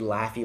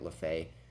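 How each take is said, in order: First: The name rhymes with 'taffy'. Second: The name ends in an 'ay' sound. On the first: The speaker calls it right. "It's actually Laffy, like Laffy Taffy" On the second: The speaker calls it wrong. "Please forgive me for pronouncing it LaFay"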